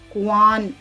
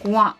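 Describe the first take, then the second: First: It ends with a full n sound. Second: It ends with only a nasal vowel. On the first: The speaker calls it wrong. "कुआन ऐसा नहीं पढ़ रहे हैं" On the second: The speaker calls it right. "इन लफ्जों में नून की आवाज कुछ नाक से निकलती है"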